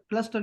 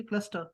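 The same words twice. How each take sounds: First: کلسٹر with the R sounded at the end; cluster with R. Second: کلسٹر with the final R dropped, ending on a soft vowel; cluster without R. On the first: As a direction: say کلسٹر with a full R. (کلسٹر آر کے ساتھ) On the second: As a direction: say کلسٹر but leave out the R. (کلسٹر بغیر آر کے) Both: Shown as a demonstration. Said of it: "آر کو نہیں بولنا چاہیے".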